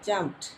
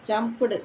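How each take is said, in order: First: The word ends in a short clipped t sound. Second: The ending is said as an extra 'du' syllable. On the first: The speaker calls it right. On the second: The speaker calls it wrong. "ஜம்ப்டு அப்படி கிடையாது"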